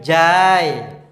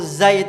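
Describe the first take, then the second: First: The word begins with a j sound. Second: The word begins with a z sound. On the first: The speaker calls it wrong. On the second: The speaker calls it right.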